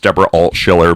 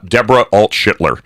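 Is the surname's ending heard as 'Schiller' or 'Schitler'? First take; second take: Schiller; Schitler. First: The surname ends with no 't' before 'ler'. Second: The surname ends with a 't' sound before 'ler'. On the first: The name is given as it really is. The speaker calls it right. "It's Deborah Alt-Schiller" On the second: The name is twisted on purpose as a mockery. The speaker calls it wrong. "I'm purposely mispronouncing her name"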